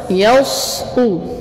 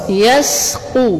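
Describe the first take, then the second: First: The s is heavy and emphatic. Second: The s is light and thin. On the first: The speaker calls it wrong. "Jangan yausqu ... kalau yausqu itu dengan sad" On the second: The speaker calls it right. "tapi yas yastu atau yasqu ... ini dengan sin"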